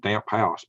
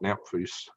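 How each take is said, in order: First: It sounds like the two words damp house. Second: It sounds like one word with an f sound. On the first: It is the reading the spelling suggests. "you think it was Damp House" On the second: It is the French-style pronunciation. "I pronounced it Damphus. I guess that's the French version"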